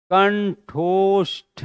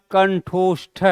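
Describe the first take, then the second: First: कंठोष्ठ spelled out slowly, each syllable apart; careful pronunciation. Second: Said in the usual way. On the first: Shown as a demonstration. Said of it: "सही उच्चारण". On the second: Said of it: "तो लिखेंगे क्या".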